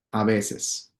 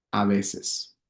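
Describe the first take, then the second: No difference in how they are said.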